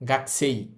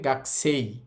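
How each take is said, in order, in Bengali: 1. k-এর পরের স্বরধ্বনিটি বাদ যায়। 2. k-এর পরের স্বরধ্বনিটি বাদ যায়।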